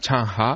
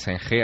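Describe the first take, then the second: First: The name is said with Chinese-style sounds. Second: The name is read with Spanish-style sounds. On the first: This is how people in China say the name. The speaker calls it right. "allí se llama Changha" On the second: This is how the name is usually said outside China. The speaker calls it wrong. "Allí no se llama Zheng He"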